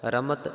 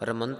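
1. ਸ਼ਬਦ ਸਾਦੇ t ਨਾਲ ਖ਼ਤਮ ਹੁੰਦਾ ਹੈ, n ਨਹੀਂ। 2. ਸ਼ਬਦ ਵਿੱਚ t ਤੋਂ ਪਹਿਲਾਂ n ਧੁਨੀ ਹੈ। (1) "ਰਮਤ ਨਾਨਕ" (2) "ਰਮੰਤ ਨਹੀਂ ਕਿਸੇ ਨੇ ਕਰ ਦੇਣਾ"

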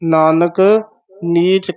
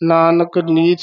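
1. ਪਹਿਲੇ ਸ਼ਬਦ ਤੋਂ ਬਾਅਦ ਵਿਸਰਾਮ ਹੈ। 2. ਦੋਵੇਂ ਸ਼ਬਦ ਬਿਨਾਂ ਰੁਕੇ ਇਕੱਠੇ ਬੋਲੇ ਜਾਂਦੇ ਹਨ। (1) "ਇਹ ਨਾਨਕ ਪਾਤੇ ਵਿਸਰਾਮ" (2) "ਨਾਨਕ ਨੀਚ ਨਹੀਂ ਕਹਿਣਾ ਹੈ"

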